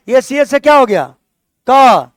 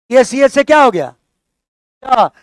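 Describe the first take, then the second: No difference in how they are said.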